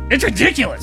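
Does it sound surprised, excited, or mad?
mad. It is said in an angry way.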